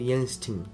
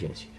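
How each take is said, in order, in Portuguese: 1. O nome é falado com pronúncia estilo alemão. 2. O nome é falado com pronúncia estilo brasileiro. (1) "porque é alemão e aí a pronúncia acaba ficando Justin" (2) "a gente é brasileiro e vai falar Justin"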